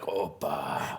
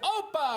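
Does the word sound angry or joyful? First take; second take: joyful; angry. First: The word is said in a joyful tone. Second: The word is said in an angry tone. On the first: "you can say it with joy" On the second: "you can say it angrily"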